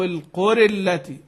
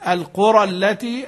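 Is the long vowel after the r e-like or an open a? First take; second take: e-like; open a. First: The vowel after the r leans toward e. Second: The vowel after the r is an open a. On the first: "وروي عنه الايه الإمالة" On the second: "روي عنه الفتح"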